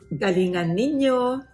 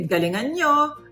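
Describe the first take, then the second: First: The pronoun is said in full, two syllables. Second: The pronoun is shortened to one syllable.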